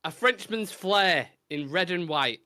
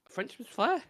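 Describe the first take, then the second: First: Slow, measured recital; recited verse. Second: "flair" lifted high as a question; questioning repeat. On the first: Acted. Host opening the last rhyming clue, measured recital. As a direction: read it out like a line of poetry. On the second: Real, not acted. Host doubting his own clue, "flair" pitched up questioningly. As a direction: query it in a high voice, rising on "flair".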